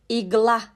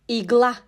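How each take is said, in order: Both takes have the same delivery.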